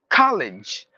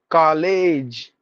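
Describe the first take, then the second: First: The ending has a short 'ij' vowel sound. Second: The ending has a long 'age' vowel sound. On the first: The speaker calls it right. "Instead of a, it's ij" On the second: The speaker calls it wrong. "we give the long sound"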